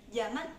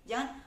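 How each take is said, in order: No difference in how they are said.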